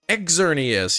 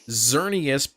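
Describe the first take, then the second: First: The name begins with an 'eks' sound. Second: The name begins with a 'z' sound. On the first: "but Exerneas" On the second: "as not Xerneas"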